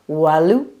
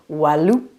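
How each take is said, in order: Both takes have the same delivery.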